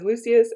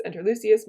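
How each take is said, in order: First: Calling out. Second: Said in the usual way. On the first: Acted. Brutus calls for his servant.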